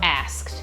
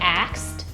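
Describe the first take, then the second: First: The s sound comes before the k. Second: The k sound comes before the s. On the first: "pronounce it the way it's spelled" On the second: "Do you say axed or asked?"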